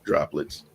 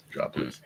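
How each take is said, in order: First: Soft, low droplets; quiet. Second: Droplets breathed out as a whisper. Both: Shown as a demonstration.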